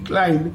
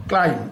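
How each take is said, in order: First: ক্লাইম্ব ending in a sounded b; voiced final b. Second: ক্লাইম্ব said as "klaim", no b; silent b. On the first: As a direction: pronounce the written b in ক্লাইম্ব. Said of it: "বি এর উচ্চারণটা থাকবে না". (ক্লাইম্ব-এর শেষে ব শোনা যায়) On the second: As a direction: end ক্লাইম্ব on the m, dropping the b. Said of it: "বি এর উচ্চারণটা থাকবে না, হবে হচ্ছে". (ক্লাইম্ব-এর ব বাদ দিয়ে "ক্লাইম") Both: Shown as a demonstration.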